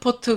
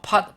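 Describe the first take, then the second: First: The word ends with an added vowel syllable. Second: The word is one closed syllable. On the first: The speaker calls it wrong. "우리가 포트 포트 그러는데 실제로는 포트가 아니죠" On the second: The speaker calls it right. "팟이라고 해야 돼요"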